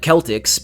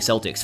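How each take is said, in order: First: The word is said the non-American way. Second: The word is said the American way. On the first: The speaker calls it right. "that's actually how you pronounce it" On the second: The speaker calls it wrong. "Americans call them fucking Celtics"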